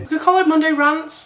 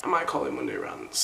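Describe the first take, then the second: First: Higher, with call stressed; title pitch. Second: Much lower and softer, dropping to a deep rumble; a low, quiet joke take on the title; deep mock voice. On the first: Pretend. Proposing a show title. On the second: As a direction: mutter Monday Rants like a deep-voiced announcer.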